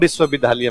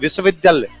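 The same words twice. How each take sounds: First: It is said with a UP regional accent. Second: It is said with a standard accent.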